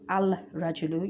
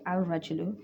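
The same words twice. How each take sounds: First: The l sound is pronounced before the r. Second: The l is silent and the r is doubled. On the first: The speaker calls it wrong. "You don't say" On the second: The speaker calls it right. "you'll say ... The Alif is joined onto the Ra"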